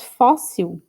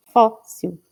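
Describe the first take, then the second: First: Fóssil said slowly, leaning on the fó; stress on first syllable. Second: Fóssil, fó stressed, il falling away; stress on first syllable. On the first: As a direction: draw out fóssil with the weight on fó. (fóssil lento com ênfase no fó) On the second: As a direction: hit the fó of Fóssil, let the il drop. (Fóssil com tônica marcada no fó e final caindo) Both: Shown as a demonstration. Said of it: "a sílaba tônica é o fó".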